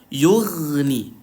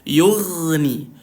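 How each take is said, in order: The two takes are said the same way.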